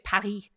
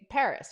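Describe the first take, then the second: First: Paris is said the French way, without the s. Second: Paris is said the American way, with the s. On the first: "they don't say Paris" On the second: "they say Paris, right? But no French person pronounces it like that"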